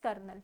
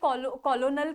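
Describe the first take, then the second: First: It is said as two syllables, kernel. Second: It is said as three syllables, col-o-nel. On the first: This is how the word is actually spoken. "But pronunciation is कर्नल" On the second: This follows the written spelling. "Spellings इसके कॉलोनल करके है"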